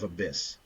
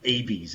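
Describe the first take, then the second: First: The word is pronounced like 'abyss'. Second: The word is pronounced like 'abies'. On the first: The speaker calls it right. "instead of abyss" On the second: The speaker calls it wrong. "I would say abies instead of abyss"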